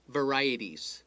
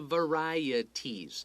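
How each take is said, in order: First: The word is said quickly. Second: The word is said slowly. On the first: "if you say it fast"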